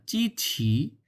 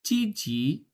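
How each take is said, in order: First: "চিছি" with a big puff on "ছি"; strongly aspirated "ছি". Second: Slow "চিজি" with unaspirated consonants; no air released. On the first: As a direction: push lots of air out on the end of "চিছি". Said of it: "ছি যখন বলছে, তখন অনেক পরিমাণ বাতাস". ("চিছি"-র "ছি"-তে অনেক বাতাস) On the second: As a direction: say "চিজি" without any puff. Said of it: "কোনো বাতাস বেরোচ্ছে না". (বাতাস ছাড়া "চিজি") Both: Shown as a demonstration.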